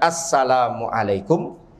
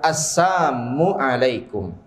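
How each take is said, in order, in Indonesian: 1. Ucapannya dilafalkan dengan 'salam' lengkap. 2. Ucapannya dilafalkan dengan 'sam', 'la'-nya dihilangkan. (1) "benaran mengucapkan assalamualaikum" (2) "kedengarannya seperti assalam"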